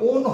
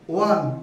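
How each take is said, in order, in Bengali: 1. স্বরধ্বনিটি 'bone' শব্দের স্বরধ্বনির মতো। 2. স্বরধ্বনিটি 'sun' শব্দের স্বরধ্বনির মতো। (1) "উচ্চারণটা কখনোই ওন হয় না" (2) "উচ্চারণটা হচ্ছে ওয়ান হয়"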